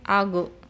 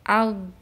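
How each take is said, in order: First: The final consonant bounces with an echo vowel. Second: The final consonant is abruptly cut off. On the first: "jangan sampai algo ... dipantulkan" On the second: "jangan al, al itu terputus"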